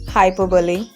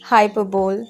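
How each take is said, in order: First: The word is said with four syllables. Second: The word is said with three syllables. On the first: The speaker calls it right. "its correct pronunciation is hyperbole" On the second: The speaker calls it wrong. "this is incorrect pronunciation"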